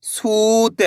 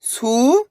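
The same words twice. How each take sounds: First: सूत joined, long ऊ; blended word. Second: सू, long pause, त; सूत split slowly, rising first syllable. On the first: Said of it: "तो मिलके बन जाएगा". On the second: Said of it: "एक अक्षर का उच्चारण करना है". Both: Shown as a demonstration.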